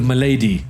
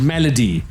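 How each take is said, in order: First: The word is pronounced in a distorted, mangled way. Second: The word is pronounced the usual English way. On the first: The speaker calls it wrong. "who couldn't pronounce this properly" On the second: The speaker calls it right. "instead of Temple of Malady"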